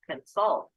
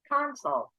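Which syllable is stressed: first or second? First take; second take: second; first. First: The stress is on the second syllable. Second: The stress is on the first syllable. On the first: It is used as a verb. "If it's a verb, it's going to be second syllable stress" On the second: It is used as a noun. "if it's a noun, it's going to be first syllable stress"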